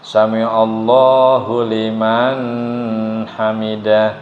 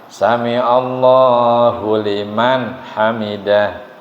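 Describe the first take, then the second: First: The n before h is blurred, not clear. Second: The n before h is pronounced clearly. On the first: The speaker calls it wrong. "Jangan sampai begini" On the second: The speaker calls it right. "yang betul jelas"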